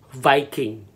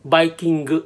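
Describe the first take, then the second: First: Said in the usual way. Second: "Viking" as "baikingu", b for v and added u; Japanese pronunciation. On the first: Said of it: "Word number three is". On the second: Shown as a demonstration. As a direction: say "Viking" the Japanese way, bai-kin-gu. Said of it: "Viking or Vikingu".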